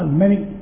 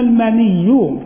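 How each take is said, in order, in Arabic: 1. صوت 'y' الأخير مفرد وقصير. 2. صوت 'y' الأخير مشدَّد ومُطوَّل. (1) "ويجوز قلنا فيه الأصل الآخر" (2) "تشديد الياء"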